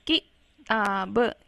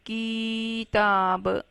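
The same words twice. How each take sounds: First: किताब with a short quick ki, a gap, then taa-ba; short vowel, not stretched. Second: किताब with a long stretched kiii, then taa-ba; wrong demo of किताब, the ki held far too long; wrongly drawn out. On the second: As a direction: drag out the first vowel of किताब very slowly. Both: Shown as a demonstration. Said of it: "लंबा नहीं खींचेंगे".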